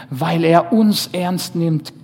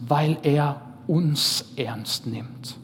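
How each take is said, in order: First: Louder and slow, stress on uns; preacher driving home the point; emphatic. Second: Said in the usual way. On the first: Shown as a demonstration. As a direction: hammer it home, slowly and loud. Point repeated, second time louder.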